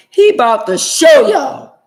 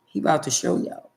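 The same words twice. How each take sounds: First: "He about to show y'all" shouted much louder and higher, slowly; preacher's shout. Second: Said in the usual way. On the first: Real, not acted. Repeated as a shouted warning.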